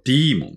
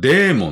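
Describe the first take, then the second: First: The first vowel sounds like 'dee'. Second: The first vowel sounds like 'day'. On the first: This is the English pronunciation. The speaker calls it right. "発音はディーモンですね" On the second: This is the Japanese loanword way of saying it. The speaker calls it wrong. "日本ではデーモンって言いますけど"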